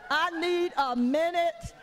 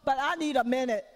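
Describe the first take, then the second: First: Dragged-out "need a minute"; slow, tired repeat. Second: Said in the usual way. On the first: Shown as a demonstration. Mother repeating to God, slow and tired. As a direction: stretch "I need a minute" slowly and wearily.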